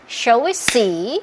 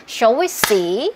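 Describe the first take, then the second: The two takes are said the same way.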